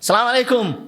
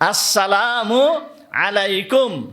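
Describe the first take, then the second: First: The greeting is clipped, dropping its opening and linking sounds. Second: The greeting is said in full with every syllable. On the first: The speaker calls it wrong. "এইটা মুহাম্মাদুর রাসূলুল্লাহ সাল্লাল্লাহু আলাইহি ওয়াসাল্লামের তরিকা নয়" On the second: The speaker calls it right. "সঠিকভাবে এইটা উচ্চারণ করতে হবে"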